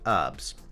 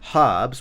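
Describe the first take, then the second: First: The word begins without an H sound. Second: The word begins with an H sound. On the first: "without the H being herbs" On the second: "which I would say"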